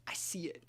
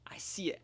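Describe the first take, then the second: First: Hushed, voiceless I see it; whisper. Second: Said in the usual way. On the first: Real, not acted. Player noting the read to himself, whispered. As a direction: whisper it to yourself. Quiet aside after read.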